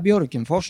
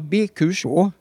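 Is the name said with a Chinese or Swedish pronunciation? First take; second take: Swedish; Chinese. First: The name is said with a native Swedish pronunciation. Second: The name is said with a Chinese-style pronunciation. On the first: "De kunde inte ens säga Björkenfors" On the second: "Det var alltså Björkenfors på kinesiska"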